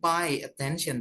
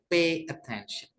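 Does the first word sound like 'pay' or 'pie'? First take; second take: pie; pay. First: The first word is said like 'pie'. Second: The first word is said like 'pay'. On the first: The speaker calls it wrong. "bukan pay attention" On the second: The speaker calls it right. "tapi pay attention"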